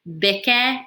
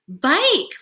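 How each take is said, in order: First: The vowel is short, like in bick. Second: The vowel is long, like in bike. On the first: The speaker calls it wrong. "try the short vowel sound first" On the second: The speaker calls it right. "Let's try the magic E rule"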